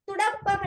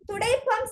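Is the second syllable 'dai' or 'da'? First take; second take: da; dai. First: The second syllable has a short 'a' vowel. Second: The second syllable has the vowel 'ai'. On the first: This is the colloquial form. The speaker calls it wrong. "புல" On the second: This is the standard form. The speaker calls it right. "சரி"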